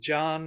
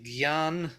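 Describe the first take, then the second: First: The word begins with a plain 'j' sound. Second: The word begins with a 'gy' sound. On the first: This is how Gujarati speakers say it. "Jan in uh, Gujarati" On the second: This is how Hindi speakers say it. "In uh, Hindi, they will say gyan"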